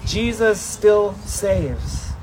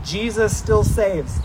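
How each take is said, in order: First: Jesus still saves, even slower with "still" stressed; slower echo. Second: Jesus still saves with STILL leaned on, slowly; slow and weighty, hit "still"; stress on still. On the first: Preacher repeating the phrase with the people, very slow. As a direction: drag it out, lean on "still". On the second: Preacher leading the congregation in a slow call-and-response. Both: Shown as a demonstration. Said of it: "can you say that with me?".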